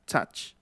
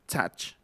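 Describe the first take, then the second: The two takes are said the same way.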